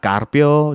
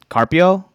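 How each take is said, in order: First: The R is said with a roll. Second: The R is said without a roll. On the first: This is the native pronunciation, which would sound odd here. "It's not Carpio, nothing like that" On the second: This is how it sounds at a school roll call. "There's no rolling of the R's"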